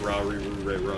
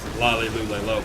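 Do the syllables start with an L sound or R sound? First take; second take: R sound; L sound. First: Each syllable starts with an R-like sound. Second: Each syllable starts with an L sound. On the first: "it's pronounced as like Ra Ri Ru Re Ro" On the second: "it's written as Lalilu Leolo"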